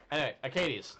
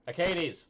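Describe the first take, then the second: First: Said in the usual way. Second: Calling a name louder. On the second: Real, not acted. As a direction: call out to get attention.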